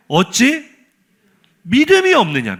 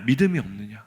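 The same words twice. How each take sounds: First: High, emphatic scolding question; quoted scolding, pitched up; imitated rebuke. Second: Low, softer scolding echo; quoted scolding, lowered and subdued; imitated rebuke. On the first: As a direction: reproach them with a raised, rising pitch. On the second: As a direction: repeat the reproach dropped down low. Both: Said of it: "두 번째 꾸중이 더 화가 나요".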